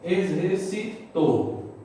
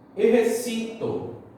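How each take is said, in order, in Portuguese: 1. A sílaba tônica está na última. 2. A sílaba tônica está na penúltima. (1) "O to é a sílaba tônica. Ela é aguda" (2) "exercito é a nossa grave"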